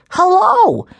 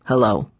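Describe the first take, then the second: First: Very high, loud, stretched child's mimicry; boy mimicking curt grandfather. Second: Low, curt grandfather's reply; terse grandfather. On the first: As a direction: indignantly echo it in a little boy's voice. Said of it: "all he said was". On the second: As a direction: answer briefly in a low old man's voice. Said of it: "Mister Alden answered". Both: A narrator's reading.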